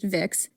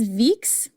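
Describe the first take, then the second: First: The vowel is a short 'i', like 'Vicks'. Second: The vowel is a long 'ee', like 'Veeks'. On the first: "Not VapoRub, just Vix" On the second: "It was probably pronounced Veeks"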